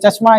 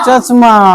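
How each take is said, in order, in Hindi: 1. श ध्वनि सीधे म से जुड़ जाती है। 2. श ध्वनि के बाद एक पूर्ण स्वर आता है। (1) "चश्मा ऐसा होता है ... ये आधा है" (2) "जानबूझ के चश्मा, ... वैसा होता नहीं है"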